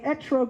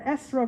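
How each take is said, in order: First: The middle consonant is a t sound. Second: The middle consonant is an s sound. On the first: This is the non-Yiddish pronunciation. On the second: This is the Yiddish pronunciation.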